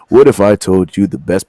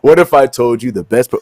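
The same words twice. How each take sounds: First: It is read in a dramatic put-on announcer voice. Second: It is read in an ordinary speaking voice.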